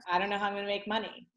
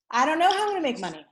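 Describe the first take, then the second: First: Softer repeat. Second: Panicky take. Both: Shown as a demonstration. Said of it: "So it's like".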